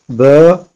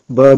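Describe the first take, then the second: First: The vowel is drawn out long. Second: The vowel is short. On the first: "on tire deux fois la prononciation normale" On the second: "si on n'aurait pas eu l'alif et le ya et le waw"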